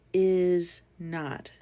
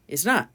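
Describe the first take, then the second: First: "is not" fully said, each word apart and loud; two separate words. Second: "Is not" smashed together, quick and loud; said quickly. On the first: Teacher explains a contraction, "is not" as two distinct words. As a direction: separate "is" from "not" with a clear gap. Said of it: "Two separate words". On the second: Teacher smashes words together for learners, quick "Is not". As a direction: run "Is not" together as one quick burst. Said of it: "want to say it quickly". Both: Shown as a demonstration.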